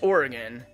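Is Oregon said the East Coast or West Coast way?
West Coast. Oregon is said the West Coast way. "if you're in the West Coast, and it's Oregon"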